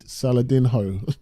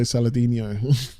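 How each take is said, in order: First: Saladinho with a hard "ho" ending. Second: Saladinho with a "nyo" ending; Saladinho said like Ronaldinho. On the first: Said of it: "it's not Salad". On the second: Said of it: "It reminds me of Ronaldinho". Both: Shown as a demonstration.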